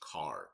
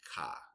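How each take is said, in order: First: It is said in a standard American accent. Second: It is said in a strong Chicago accent. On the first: "that's how it's pronounced in regular English" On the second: "in the hoods of Chicago, they say ka"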